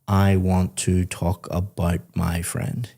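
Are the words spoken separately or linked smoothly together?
separately. Each word is said separately, without linking.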